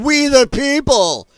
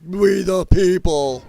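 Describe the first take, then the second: First: High, loud, slow mock chant of the crowd; sneering slow imitation of a yelled slogan. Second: Slow, drawn-out mocking chant; a hammed-up imitation of protesters, a touch louder; mock screaming. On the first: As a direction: drag it out like a rowdy protester. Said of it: "Somebody yelled in the background". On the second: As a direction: sneer the slogan back at them.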